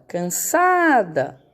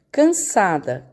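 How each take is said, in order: First: "Cansada" slowly, SA held long; chamando a palavra. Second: Said in the usual way. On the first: Shown as a demonstration. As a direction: stretch the sa in "Cansada", as if calling it. (chamando "Cansada" devagar, alongando o sa) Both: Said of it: "É o sa".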